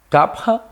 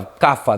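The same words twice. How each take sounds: First: It is said with the original pronunciation. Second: It is said with a Portuguese pronunciation. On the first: The speaker calls it right. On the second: The speaker calls it wrong.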